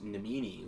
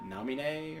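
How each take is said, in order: First: The name ends with an 'ee' sound. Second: The name ends with an 'ay' sound.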